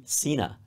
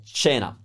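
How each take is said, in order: First: CENA with an s sound at the start; English-instinct pronunciation. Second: CENA with a ch sound at the start; Italian pronunciation. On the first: Teacher showing the learner's English instinct, s-sound CENA. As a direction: say "cena" as SEE-na. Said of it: "your instinct would be". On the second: Teacher correcting the English instinct, ch-sound CENA. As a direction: say "cena" as CHAY-na. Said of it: "It's a ch sound". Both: Shown as a demonstration.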